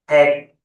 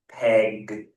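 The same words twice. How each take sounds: First: The final consonant is stopped short, not released. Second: The final consonant is clearly released. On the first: This is how a Thai speaker reads it. "So Thais may read this" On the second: This is how an English speaker says it. "different to the English"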